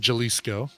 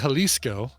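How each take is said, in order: First: The first sound is like an English J. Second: The first sound is like an English H. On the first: The speaker calls it wrong. "you don't say Jalisco" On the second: The speaker calls it right. "Because you say Jalisco"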